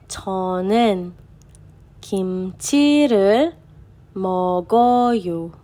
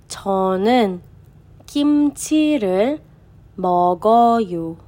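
No difference in how they are said.

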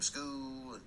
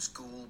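First: The word is said in a Southern drawl. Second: The word is said in a plain accent.

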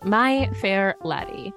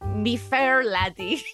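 First: It is said in the speaker's ordinary accent. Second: It is said in an attempted Scottish accent.

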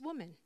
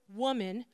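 First: It is said in a respectful, gentle tone. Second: It is said with a cheeky, sassy tone.

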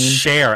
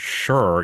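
First: The name sounds like the word 'share'. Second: The name sounds like the word 'sure'. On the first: The speaker calls it right. "it's Cher" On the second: The speaker calls it wrong. "are you pronouncing it sure?"

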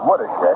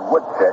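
First: The name is said with three syllables. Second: The name is said with two syllables. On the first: The speaker calls it right. "which is the correct pronunciation" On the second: The speaker calls it wrong. "You're tend to say Woodshick"

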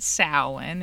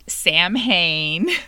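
First: The word is not pronounced as it is spelled. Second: The word is pronounced just as it is spelled. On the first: The speaker calls it right. "we pronounce it Samhain" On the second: The speaker calls it wrong. "It's not Samhain. ... it may be spelled that way, but that is not how you say it"

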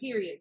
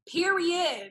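First: It sounds dismissive, like saying whatever. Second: It sounds enthusiastic, like excited agreement.

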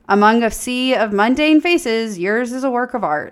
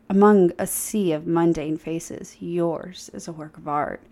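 First: It is said in a snarky tone. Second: It is said in a smooth tone.

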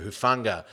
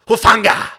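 First: The name is said flatly, without extra emphasis. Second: The name is said with strong, forceful emphasis. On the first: The speaker calls it wrong. "I was expecting a much more profound pronunciation of Hufanga" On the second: The speaker calls it right. "That's a little bit better"

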